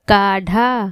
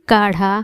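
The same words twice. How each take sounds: First: The middle consonant is a hard stop. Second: The middle consonant is a soft tongue flap. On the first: The speaker calls it wrong. "अगर नुक्ता हटा के बोलें ... जो गलत है" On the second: The speaker calls it right. "सही है"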